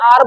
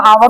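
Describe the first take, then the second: First: आर as one open syllable, h silent; one long "aa" into r in आर; corrected pronunciation. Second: आवर with a w sound in the middle; the mistaken two-part आवर; rejected pronunciation. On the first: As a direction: say आर like "aar", no w. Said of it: "आर बोलते हैं". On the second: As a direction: say आवर as "aa-var". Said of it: "इसको हम आवर तो बोलते नहीं". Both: Shown as a demonstration.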